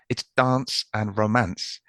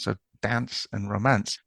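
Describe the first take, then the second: First: Dance is said in the speaker's own non-northern way. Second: Dance is said with a more northern vowel.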